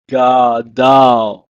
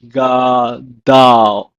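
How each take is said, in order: First: Gadal repeated loud, final l clear; Hebrew pronunciation. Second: Gadal said loud with a falling tune; Hebrew pronunciation. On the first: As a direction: model Gadal again clearly. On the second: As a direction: model gadal clearly for repetition. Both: Shown as a demonstration. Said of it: "It's pronounced as".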